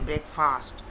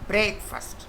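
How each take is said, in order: First: The stress is on the second syllable. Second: The stress is on the first syllable. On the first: The speaker calls it wrong. "Don't say breakfast" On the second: The speaker calls it right. "The accent should be on break"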